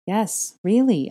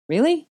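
First: Firm answer with a falling end; insistent. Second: High, loud rising question; incredulous question. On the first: Hermione pushing Harry to take his turn, insistent. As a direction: press the point, raised and emphatic. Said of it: "I insisted". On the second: Harry reacting to being asked to say it back, incredulous. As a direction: ask it in startled disbelief. Harry startled by Hermione's request. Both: A narrator's reading.

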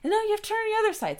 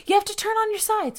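First: Much higher, very fast correction; hurried correction. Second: Much higher, louder command; urgent instruction; urgent order. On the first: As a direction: rush the order. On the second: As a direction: nurses ordering her urgently. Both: Retold or imitated. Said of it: "they start going".

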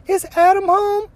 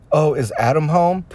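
First: Much higher mock falsetto lady voice; falsetto woman. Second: Lightly raised mock female voice; a hint of a woman asking sweetly; prank caller as a woman. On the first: Prank caller asking for the husband, in high falsetto. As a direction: squeak it out like a fake woman caller. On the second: Prank caller lightly voicing a woman on the phone. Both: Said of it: "Elmer would ask".

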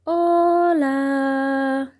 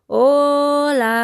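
First: Far-off echoing reply. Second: High, loud call to the mountains; calling loudly. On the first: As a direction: sound like a distant echo. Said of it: "solo contestó el eco". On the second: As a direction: call out as loud as you can. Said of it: "Le llamó tan alto como pudo". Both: Acted.

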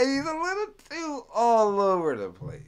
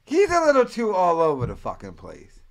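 First: Higher, mocking repeat after a laugh. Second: Said in the usual way. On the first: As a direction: tease him by echoing the line up high. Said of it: "That guy".

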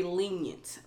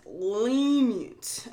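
First: Said in the usual way. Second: "lenient" stretched out with a swooping rise and fall; emphatic repeat. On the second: Real, not acted. Host scorning the judge's sentence, "lenient" drawn out emphatically. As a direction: draw out "lenient" for pointed emphasis.

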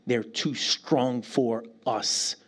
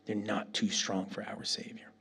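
First: Slow emphasis. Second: Whisper. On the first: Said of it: "repeated with emphasis". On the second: Preacher whispering to the congregation. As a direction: breathe it as a secret truth. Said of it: "repeated as whisper". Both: Shown as a demonstration.

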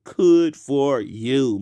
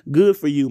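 First: "could" said slowly with a hard k in place of "good"; slurred could for good. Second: Said in the usual way. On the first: Shown as a demonstration. Host deliberately saying "could" instead of "good" to straight listeners. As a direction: drag out "could for you" with a k sound. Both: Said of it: "I said could".

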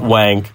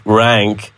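First: "wank" with W where R belongs; mispronunciation "wank". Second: "rank" starting on R, not W; corrected pronunciation "rank". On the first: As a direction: say "wank", starting with a W sound. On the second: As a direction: say "rank" with a clear R. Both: Shown as a demonstration. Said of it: "not wank, rank".

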